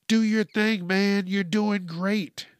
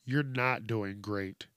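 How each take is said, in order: First: Higher, louder hyped-up supporter; mock cheering. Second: Lower, softer, slow put-down; deadpan rebuttal. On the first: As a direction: cheer him on with mock enthusiasm. Voicing supporters cheering him on. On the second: Real, not acted. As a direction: deflate the cheer slowly and quietly. His own rebuttal to the cheer.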